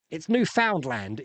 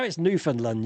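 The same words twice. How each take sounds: First: Newfoundland slowly as new-FOUND-land; slow Newfoundland with a full "found" and "land"; spelling pronunciation. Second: Newfoundland said as NEW-fund-lund; Newfoundland with "found" reduced to "fund"; corrected pronunciation. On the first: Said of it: "So I was calling it Newfoundland". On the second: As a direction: shrink Newfoundland to NEW-fun-lund, weak last syllables. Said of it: "she's like". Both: Retold or imitated.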